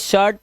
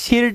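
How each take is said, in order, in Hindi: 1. स्वर 'uh' ध्वनि है, 'shurt' जैसा। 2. स्वर 'ih' ध्वनि है, 'shirt' जैसा। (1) "ये शर्ट पढ़ते हैं" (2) "इसे शिर्ट नहीं पढ़ते"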